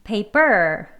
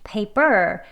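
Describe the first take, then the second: First: The stress is on the second syllable. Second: The stress is on the second syllable.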